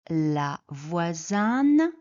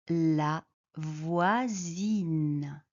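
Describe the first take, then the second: First: The vowel keeps the masculine 'voisin' sound. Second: The vowel changes from the masculine 'voisin' sound. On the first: The speaker calls it wrong. "On ne dit pas la voisine" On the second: The speaker calls it right. "on dit la voisine"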